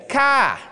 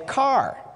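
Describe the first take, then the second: First: It is said with a Maine accent, without the R. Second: It is said with a general American accent.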